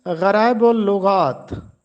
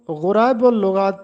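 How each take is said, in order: First: गराइबुल लुगात starting "gha", "gha-raa-ibul lughaat"; गराइबुल लुगात with zabar on ghain; correct pronunciation. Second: गुराइबुल लुगात starting "ghu", "ghu-raa-ibul lughaat"; wrong गुराइबुल लुगात with pesh on ghain; common mispronunciation. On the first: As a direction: open a after gh in गराइबुल लुगात. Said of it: "जबकि गैन पर ज़बर लगा है". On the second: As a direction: round u after gh in गुराइबुल लुगात. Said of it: "अक्सर लोग इसको गुराइबुल लुगात पढ़ते हैं". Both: Shown as a demonstration.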